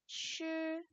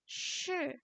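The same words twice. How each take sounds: First: The pitch stays high and level. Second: The pitch falls sharply from high. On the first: It is part of the word for teacher. "Nadanya nada satu" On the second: It means 'to be'. "tetapi yang ini nada empat"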